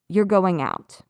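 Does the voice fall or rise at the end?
fall. The pitch drops at the end. It is a statement. "I'm going to drop my pitch at the end of the sentence"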